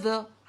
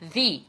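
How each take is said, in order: First: The word ends in a short, weak 'uh' vowel. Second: The word ends in a light 'ee' vowel. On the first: The next word starts with a consonant. "هنقول the the the عادي جدا" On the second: The next word starts with a vowel. "هنكسر كسرة خفيفة"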